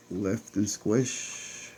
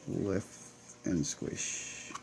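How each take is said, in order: First: Said in the usual way. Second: "lift and squish" whispered much softer; a soft voiceless "lift and squish"; whispered repeat. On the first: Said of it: "I call it the lift and squish". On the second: Real, not acted. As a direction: breathe the phrase to yourself. Repeats catchphrase under breath.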